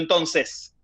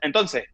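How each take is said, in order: First: The final S sound is clearly pronounced. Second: The final S sound is dropped. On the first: This is not how the speaker says it. "no digo" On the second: This is how Venezuelans say it. "me como ciertas letras, los venezolanos se comen las S. Entonces, yo, te, yo digo"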